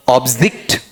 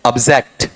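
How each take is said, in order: First: "ऑब्जेक्ट" as OB-zikt, open first vowel; full "ob", short i in the second syllable of "ऑब्जेक्ट"; noun pronunciation. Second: "ऑब्जेक्ट" as ub-ZEKT, weak first vowel; verb pronunciation. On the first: Teacher reading it as a noun, noun pronunciation. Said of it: "noun में पढ़ता हूं तो इसका उच्चारण". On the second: Teacher showing the verb side, verb pronunciation. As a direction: reduce the start of "ऑब्जेक्ट", full e in zekt. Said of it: "यहां वाले part में एक ये बोलो". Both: Shown as a demonstration.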